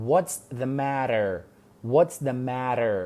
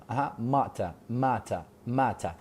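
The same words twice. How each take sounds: First: "matter" with a flapped t, like "madder"; American matter. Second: "matter" with a crisp t and no r at the end; British matter. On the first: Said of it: "Matter بە ئەمریکی ئەڵێن matter". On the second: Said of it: "بە بەریتانی پێم ئەڵێن matter". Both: Shown as a demonstration.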